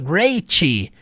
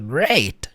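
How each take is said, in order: First: The final T is pronounced strongly. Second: The final T is barely heard. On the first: The speaker calls it wrong. "Você não fala great" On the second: The speaker calls it right. "Você não enfatiza a consoante no final"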